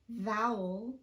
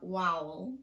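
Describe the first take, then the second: First: The word starts with a clear V sound. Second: The word starts with a W-like sound. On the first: The speaker calls it right. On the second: The speaker calls it wrong.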